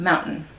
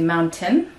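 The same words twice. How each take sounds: First: The T in the middle is a glottal stop. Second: The T in the middle is fully released. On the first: "that T is the is the stop" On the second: "instead of actually mountain"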